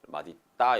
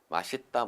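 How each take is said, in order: First: The linked consonant is a d sound. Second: The linked consonant is an s sound. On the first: This follows the basic rule. "원래 원칙 위에 있는 규정을 가지고 설명하면" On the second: This is accepted by common usage. "맛있다 멋있다 발음할 수가 있다라는 이야기입니다"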